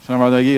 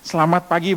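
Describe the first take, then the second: First: The vowels are swallowed and barely articulated. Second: The vowels are articulated clearly and fully. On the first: The speaker calls it wrong. "Itu nggak ada vokal ya" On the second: The speaker calls it right. "itu harus jelas"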